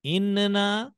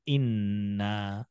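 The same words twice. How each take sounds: First: इन्ना with a short single nun; wrong single nun. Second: इन्ना slow, with a long held nun; doubled nun. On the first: Teacher to children, contrasting the wrong reading. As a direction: say इन्ना lightly, no held nun. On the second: Teacher to children, the correct doubled reading. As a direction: slowly press the nun in इन्ना. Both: Shown as a demonstration. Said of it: "दोनों में कुछ फर्क".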